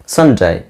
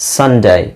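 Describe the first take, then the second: No difference in how they are said.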